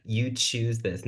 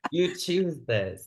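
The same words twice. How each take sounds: First: Very slow, each word weighted; slow stress on You choose this; slow emphatic. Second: Slow and laughing through You choose this; amused slow scolding; laughing emphatic. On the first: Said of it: "I hate that". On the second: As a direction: laugh while stressing it. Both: Real, not acted.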